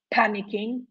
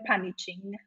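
First: Said in the usual way. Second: "panicking" with a ch sound instead of k; mispronounced panicking. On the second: Shown as a demonstration. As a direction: say "panicking" with ch in the middle, as in chin. („panicking” wymówione przez „cz” zamiast „k”) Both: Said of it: "trzeba dodać k".

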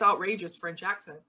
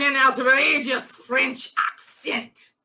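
First: Said in the usual way. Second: Slow, hammed-up French accent; outrageous French accent. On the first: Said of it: "still with his outrageous French accent". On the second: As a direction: draw it out in a comic French accent.

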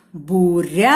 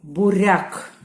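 First: Буряк called loudly with a long rising РЯ; calling out. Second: Said in the usual way. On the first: Shown as a demonstration. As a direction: call out буряк, holding the stressed Я. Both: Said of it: "Гукаємо слово".

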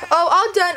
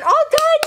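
First: Said in the usual way. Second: High cheerful sing-song. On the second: Real, not acted.

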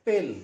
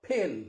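First: पिल with a plain unaspirated P; पिल, hard dry P without aspiration; Indian-style P. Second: फिल with a puff of air on the P; aspirated P. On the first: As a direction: say पिल the Indian way, no puff of air on the P. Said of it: "Indian क्या बोलेगा?". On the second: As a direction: pill said with a strongly aspirated P, as फिल. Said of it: "हमें क्या बोलना चाहिए?". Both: Shown as a demonstration.

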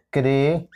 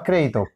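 First: CRÉDITO split as cré, di, to with long gaps; syllable by syllable. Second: Said in the usual way. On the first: Shown as a demonstration. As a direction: break "Crédito" into three separate syllables. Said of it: "Separamos en sílabas crédito". («Crédito» separado en sílabas: cré, di, to) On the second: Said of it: "Separamos en sílabas".

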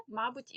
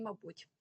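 First: «мабуть» as МА-буть, rising; stress on first syllable. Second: «мабуть» as ма-БУТЬ, falling; stress on second syllable. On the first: (наголос на перший склад: «мАбуть») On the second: (наголос на другий склад: «мабУть») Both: Shown as a demonstration. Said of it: "подвійний наголос".

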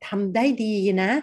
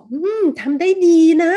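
First: Said in the usual way. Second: Sincere praise. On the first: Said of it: "กำลังจะชมเขาเลยว่า". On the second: Shown as a demonstration. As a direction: praise the work like you truly mean it. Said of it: "รู้สึกดีใช่ไหมคะ".

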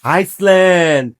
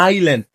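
First: "আইসল্যান্ড" slowly, with the S sounded; "আইসল্যান্ড" drawn out low, clear S; country pronunciation. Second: "আইল্যান্ড" as eye-land, lower, falling; "আইল্যান্ড" low, "eye" straight into "land"; correct pronunciation. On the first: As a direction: stretch "আইসল্যান্ড" as ice-land, falling. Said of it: "আর যেটা দেশ". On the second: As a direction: say "আইল্যান্ড" with the S dropped. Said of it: "এটা বাদ". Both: Shown as a demonstration.

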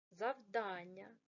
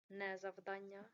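First: "завдання" slow, stress on the second "а"; correct stress. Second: "завдання" with stress on the first syllable, as a mistake; wrong stress, mocked. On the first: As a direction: stretch "завдання", leaning on "дан". (правильний наголос: "завдання", повільно, наголос на "да") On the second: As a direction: say "завдання" stressing "зав" to show the error. (неправильний наголос у слові "завдання", на першому складі) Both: Shown as a demonstration.

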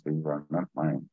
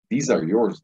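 First: "not" leaned on, the line dropped softer; stress on not. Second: "these" lifted and "yours" pointed out; stress on yours. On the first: Teller insisting the drugs belong to the cop, soft stress on not. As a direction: deny ownership, "these are not mine" kept low. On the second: Teller pressing papers on the armed cop, pointing stress. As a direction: hand them over, "these are yours". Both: Retold or imitated. Handing over the documents.

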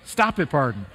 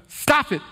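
First: Steadying himself. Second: Sharp, higher, louder stop; scolding yourself as tears come; choked-up self-scolding. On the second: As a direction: cut off your own tears with a sudden high stop. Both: Real, not acted. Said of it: "I'm gonna get emotional again".

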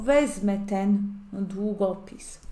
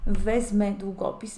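First: Wezmę ten długopis said slowly, each word spaced; slow model sentence. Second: Said in the usual way. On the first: Shown as a demonstration. Polish teacher modelling a sentence for students, slow and clear. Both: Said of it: "teacher example sentence".

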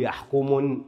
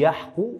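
First: يحكم ending in "-mun", with an n; يحكم with a nun tacked on; wrongly added tanween. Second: يحكم ending in an open "-mu", no n; يحكم with a plain u vowel at the end; single damma. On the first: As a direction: show the mistake: "yahkumun" for يحكم. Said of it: "لا أقول يحكم". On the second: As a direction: draw out "yahku-mu" for يحكم. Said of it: "انظر ضمة واحدة". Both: Shown as a demonstration.

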